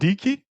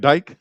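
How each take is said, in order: First: The vowel sounds like 'eek'. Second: The vowel sounds like 'ike'. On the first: The speaker calls it right. "It's called Deke" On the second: The speaker calls it wrong.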